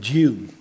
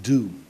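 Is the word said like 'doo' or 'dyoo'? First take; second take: dyoo; doo. First: It is said 'dyoo' with a glide, posh style. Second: It is said plainly 'doo', New Jersey style.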